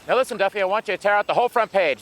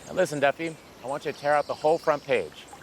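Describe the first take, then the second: First: It is said faster and more loudly. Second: It is said slower and more quietly.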